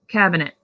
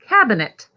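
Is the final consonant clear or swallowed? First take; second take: swallowed; clear. First: The final consonant is swallowed and barely heard. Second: The final consonant is pronounced clearly and fully. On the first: The speaker calls it wrong. "we often kind of swallow that last sound" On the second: The speaker calls it right. "instead of"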